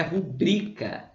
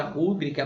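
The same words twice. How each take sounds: First: "rubrica" com o "bri" forte; tônica no BRI. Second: "rúbrica" com a força no "ru"; tônica no RU. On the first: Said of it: "a palavra é rubrica". ("rubrica" como paroxítona) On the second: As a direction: apoie a primeira sílaba de "rúbrica". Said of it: "Não existe a palavra rúbrica". ("rúbrica" como proparoxítona) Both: Shown as a demonstration.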